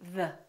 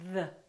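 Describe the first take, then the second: First: The th is made with the voice buzzing. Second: The same.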